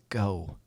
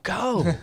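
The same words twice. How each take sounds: First: It is said very softly. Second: It is said loudly, like a yell.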